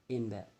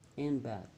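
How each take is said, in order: First: The phrase is said fast with words run together. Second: The phrase is said slowly with separate words.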